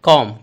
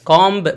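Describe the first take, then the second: First: The word ends on the m sound. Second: A b sound is pronounced at the end. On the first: The speaker calls it right. "बल्कि कॉम" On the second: The speaker calls it wrong. "बाकी आवाज नहीं होगी"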